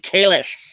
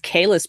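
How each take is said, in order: First: The name ends with an sh sound. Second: The name ends with a plain s sound. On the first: This is how it is said in Discovery. "but no, it's apparently Kalish" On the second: This is how it was said before Discovery. "we all thought it was Kalis"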